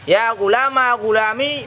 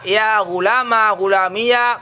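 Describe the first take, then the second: First: The last word ends in a long 'ee' sound. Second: The last word ends in an added 'ya' syllable. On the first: "mensukunkan ya" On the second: "memfathahkan ya"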